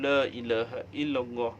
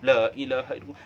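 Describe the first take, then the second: First: It is said at a moderate, even pace. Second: It is said very fast and hurried.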